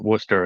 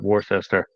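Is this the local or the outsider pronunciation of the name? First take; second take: local; outsider. First: It is said the way locals say it. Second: It is said the way outsiders say it. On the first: This is how people from the area say it. The speaker calls it right. "we actually pronounce it Worcester" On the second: This is how people from elsewhere say it. The speaker calls it wrong. "and not Worcester"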